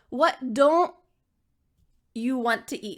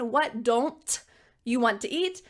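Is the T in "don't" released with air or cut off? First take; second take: cut off; released. First: The T in don't is stopped with no air. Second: The T in don't is released with air. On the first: The speaker calls it right. "your tongue is almost going to make that T sound, but it stops" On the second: The speaker calls it wrong. "You're not saying"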